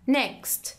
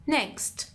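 No difference in how they are said.

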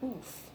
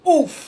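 First: The oof sounds natural and restrained. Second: The oof sounds big and cartoonishly exaggerated. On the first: A sincere reaction. "that's like a genuine one" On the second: A mock, theatrical reaction. "Mine's more like a caricature reaction"

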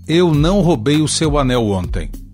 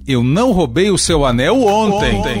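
First: No word is given special stress. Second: The stress falls on the word ontem. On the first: "a frase sem ênfase" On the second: "ainda posso dar ênfase no advérbio de tempo"

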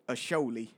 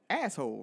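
First: It is said as three syllables, ending in 'ee'. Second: It is said as two syllables, ending in 'hole'. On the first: This is the name as it is meant to be said. "what's it supposed to spell?" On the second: This is the literal reading of the spelling. "That's what that spells"

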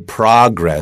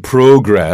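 First: It is said in an American accent. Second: It is said in a British accent. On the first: "American people usually say progress" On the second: "my British friends say progress"

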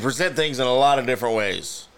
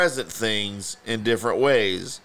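First: It is read smoothly, like a confident expert. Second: It is read haltingly, like a small child.

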